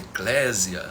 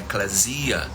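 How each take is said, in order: First: The stress falls on the second syllable. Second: The stress falls on the third syllable. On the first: "como geralmente se ensina nos seminários brasileiros" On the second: "Eu aprendi com um grego que o correto é eclesia"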